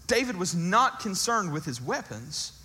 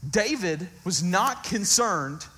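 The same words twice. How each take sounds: First: Said in the usual way. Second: "not" drawn out, slow and firm; slow emphatic "not concerned"; stress on not. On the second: Shown as a demonstration. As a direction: lean hard on "not" in "David was not concerned".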